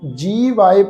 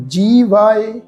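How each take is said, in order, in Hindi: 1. पहले अक्षर में लंबा 'ee' स्वर है। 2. पहले अक्षर में लंबा 'ee' स्वर है।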